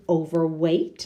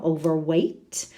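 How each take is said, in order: First: Said in the usual way. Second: Overweight said slowly, each sound clear, "weight" rhyming with A; teacher spelling out the A sound in overweight; slow clear model word. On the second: Shown as a demonstration. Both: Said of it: "Tantas letras para decir A".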